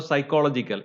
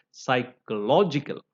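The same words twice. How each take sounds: First: "psychological" wrongly stressed on -CHOL-, quickly; wrong adjective stress. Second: "psychological" stressed on -LOG-, with deliberate syllables; adjective stress. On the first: Teacher showing what to avoid, stress on second syllable. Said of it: "it is not a psychological". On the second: Teacher correcting the adjective form, stress on third syllable. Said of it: "it is psychological". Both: Shown as a demonstration.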